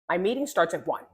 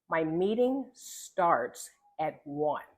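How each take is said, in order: First: It is said quickly and choppily. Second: It is said slowly and clearly. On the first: The speaker calls it wrong. "You notice the choppiness" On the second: The speaker calls it right. "slowing down and saying"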